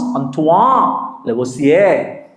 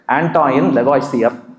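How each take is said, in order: First: The name is said with a French pronunciation. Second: The name is said with an anglicized pronunciation. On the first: The speaker calls it right. "His name is supposed to be pronounced" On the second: The speaker calls it wrong. "we have been pronouncing him Lavoisier"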